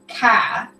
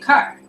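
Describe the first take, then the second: First: It is said in a Texas accent. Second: It is said in a non-Texas accent. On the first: "It's like Texas. They say car" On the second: "Now here we say car"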